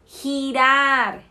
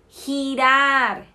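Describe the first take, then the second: First: It is said with a Spanish g sound. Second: It is said with a Spanish g sound.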